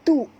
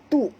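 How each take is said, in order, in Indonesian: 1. Suku katanya terdengar ringan, dengan hentian glotis. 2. Suku katanya terdengar ringan, dengan hentian glotis.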